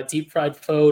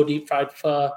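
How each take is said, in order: First: Pho rhyming with "go"; pho said as foe. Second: Pho rhyming with "duh"; pho said as fuh. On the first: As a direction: say pho with a long O at the end. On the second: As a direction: say pho with a short uh vowel. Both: Shown as a demonstration. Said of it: "how you pronounce it".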